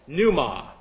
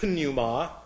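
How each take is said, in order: First: The word starts with an n sound, no p. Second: The word starts with an audible p sound. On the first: The speaker calls it right. "The P is silent" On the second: The speaker calls it wrong. "not pneuma"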